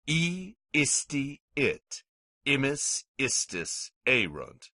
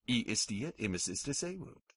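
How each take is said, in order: First: The endings are recited at a slow, normal pace. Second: The endings are recited at a very fast pace.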